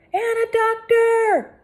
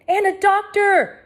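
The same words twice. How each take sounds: First: Slow high loud echoed call. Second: Slow high loud call; cried out. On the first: Inspector Locke repeating the call for a doctor. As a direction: echo the demand with authority. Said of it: "The voice belonged to Inspector Locke". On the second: Hector crying out for a doctor. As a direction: demand it urgently. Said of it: "cried Hector". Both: A narrator's reading.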